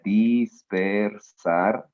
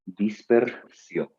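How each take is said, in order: First: Dispersar stretched very slowly, every sound held. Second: Dispersión said slowly, ending falling. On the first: Teacher showing the word's parts to students, very slow. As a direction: draw out dispersar syllable by syllable. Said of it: "Entonces, mira". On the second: Teacher giving the correct form to students, slowly. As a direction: give the answer dispersión slowly. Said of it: "te voy a decir". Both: Shown as a demonstration.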